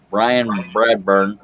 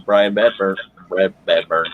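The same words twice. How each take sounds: First: Slow, deliberate "Bradburn" with both R sounds; careful pronunciation. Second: Tripping over Bradburn as "Badburn"; stumbled name. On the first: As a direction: take "Bradburn" slowly to get the tricky name right. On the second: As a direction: fumble the surname, dropping the R in Bradburn to say "Badburn". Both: Real, not acted. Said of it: "That's hard to say".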